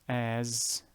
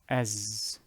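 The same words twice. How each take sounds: First: The vowel is stretched out long. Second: The vowel is short, not stretched. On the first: The speaker calls it wrong. "not as. Again, do not elongate" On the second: The speaker calls it right. "That would be as"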